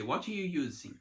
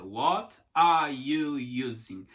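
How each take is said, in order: First: Quick, words run together; native speed. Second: Slow, each word apart; separated words. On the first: Teacher imitating a native speaker, quick and linked. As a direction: rattle it off like a native. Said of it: "Quando o nativo vem e fala". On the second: Teacher imitating the slow separated way, pulled apart. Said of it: "ouvir separadinho". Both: Shown as a demonstration.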